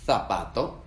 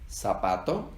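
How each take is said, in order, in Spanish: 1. La z se dice con la lengua entre los dientes. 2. La z se dice como un sonido s.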